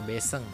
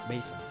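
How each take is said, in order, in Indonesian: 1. Vokal pertama adalah 'e' biasa. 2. Vokal pertama adalah diftong 'ai'.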